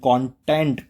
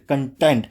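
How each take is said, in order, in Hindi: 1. पहले अक्षर में खुला 'kon' स्वर है। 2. पहले अक्षर में छोटा 'kun' स्वर है। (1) "जैसे कॉन्फिडेंस" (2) "कंटेंट और कंटेंट दोनों ही तरीके से बोला जा सकता है"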